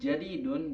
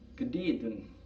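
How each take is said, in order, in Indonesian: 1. Kata ini dimulai dengan bunyi j. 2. Kata ini dimulai dengan bunyi g keras.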